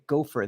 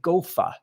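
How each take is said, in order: First: The word is said in a general accent. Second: The word is said in a Massachusetts accent. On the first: "they don't say gopher there" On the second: "I was in Massachusetts, They say Gofa"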